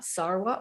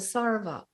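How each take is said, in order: First: The middle consonant is a w sound. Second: The middle consonant is a v sound. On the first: "Some people pronounce it with a wat" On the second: "some with a va"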